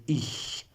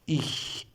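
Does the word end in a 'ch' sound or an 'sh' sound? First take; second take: ch; ch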